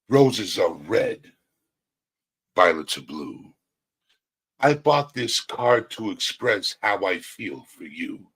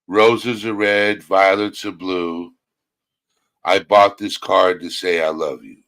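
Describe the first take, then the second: First: It is read with strong emotion. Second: It is read in a plain, flat way.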